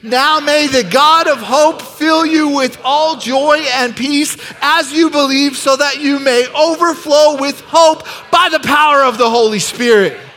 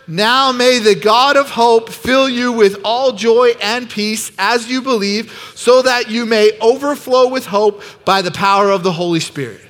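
First: It is read with high, excited energy. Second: It is read in a calm, plain way.

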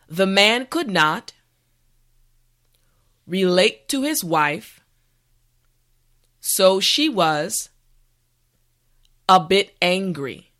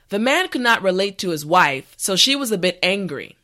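First: The sentence is said slowly. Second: The sentence is said at normal speed. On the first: "this time repeat after me" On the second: "the last time at a regular pace"

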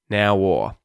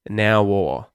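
The two takes are said the same way.

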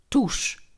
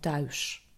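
First: The vowel is a plain oe sound. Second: The vowel is the ui diphthong. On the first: This is how it sounds in the Groningen dialect. "En ook soms een oe" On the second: This is how it sounds in standard Dutch. "in plaats van thuis"

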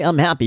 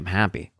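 First: It sounds like a salesy podcast catchphrase. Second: It sounds earnest and sincerely meant.

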